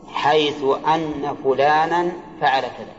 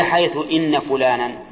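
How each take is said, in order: First: Slow phrase with أن pronounced "anna"; open hamza on أن. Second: Slow phrase with إن pronounced "inna"; kasra on إن. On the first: Teacher quotes how writers put it, with anna. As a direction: say أن as "anna", starting with a. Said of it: "الكتاب يكتبون". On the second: Teacher offers the alternative to students, with inna. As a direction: say إن as "inna", starting with i. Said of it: "ولا". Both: Shown as a demonstration.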